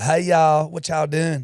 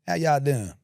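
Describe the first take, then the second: First: Hammed-up Southern accent, high and loud; silly put-on Southern accent; exaggerated accent impression. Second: Put-on understated Southern accent, easy and casual; lightly imitated Southern accent; natural-sounding accent impression. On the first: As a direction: overdo a Southern greeting in a silly voice. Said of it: "makes it sound stupid". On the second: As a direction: toss off a Southern greeting without overdoing it. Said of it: "just does it natural".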